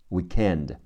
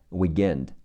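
First: The middle consonant sounds like a k. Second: The middle consonant sounds like a g.

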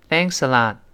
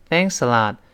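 First: It is said lightly, with little feeling. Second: It is said lightly, with little feeling.

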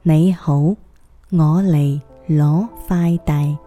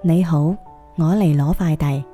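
First: It is said slowly. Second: It is said at normal speed.

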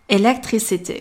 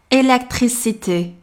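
First: One syllable carries a strong English-style stress. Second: The syllables are even, with no heavy stress. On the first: The speaker calls it wrong. "同学们一定不要受英文的影响，发成electricity" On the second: The speaker calls it right. "法语中的单词尽量不要加重音，我们要读作"

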